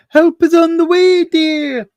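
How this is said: It is said in a Mrs Doubtfire voice.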